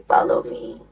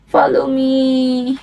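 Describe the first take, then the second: First: Breathy whispered follow me; hushed whisper of follow me. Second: Slow, drawn-out follow me; slow deliberate follow me; slow firm. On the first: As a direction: whisper it like a secret. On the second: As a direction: say it slowly and clearly. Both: Shown as a demonstration. Repeating follow me variously.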